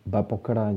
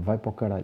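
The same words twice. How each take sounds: First: The first word starts with a b sound. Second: The first word starts with a v sound. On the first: "Com B" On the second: "Agora é com V"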